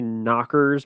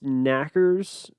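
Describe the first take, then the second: First: The first vowel sounds like in 'knock'. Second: The first vowel sounds like in 'knack'. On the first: "I'm going to say knockers" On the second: "which is pronounced knackers"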